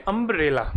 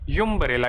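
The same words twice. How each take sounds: First: Umbrella said as अम्ब्रेला, starting on a clear vowel sound; अम्ब्रेला pronounced with a vowel start; correct pronunciation. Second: Umbrella said as यूम्ब्रेला, starting with a 'yoo' sound; the mistaken यूम्ब्रेला with a 'y' glide at the start; यूम्ब्रेला said wrongly with a 'yoo' opening; wrong pronunciation. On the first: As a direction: open the word अम्ब्रेला with a plain 'um' vowel. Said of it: "ना कि यूम्ब्रेला". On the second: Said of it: "ना कि". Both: Shown as a demonstration.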